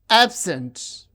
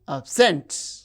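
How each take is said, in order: First: The stress is on the first syllable. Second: The stress is on the second syllable. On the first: The word is used as a noun or adjective. "the stress is on the first syllable" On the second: The word is used as a verb. "when they function as verbs, the stress is on the second syllable"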